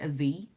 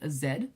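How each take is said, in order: First: The letter name is said the American way. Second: The letter name is said the non-American way.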